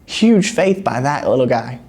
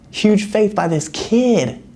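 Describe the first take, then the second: First: Said in the usual way. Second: Put-on high, slow, marveling at the kid; admiring emphasis. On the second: Shown as a demonstration. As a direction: lift it up in wonder.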